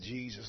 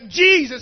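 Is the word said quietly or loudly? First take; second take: quietly; loudly. First: It is said quietly and weakly. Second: It is yelled loudly and forcefully.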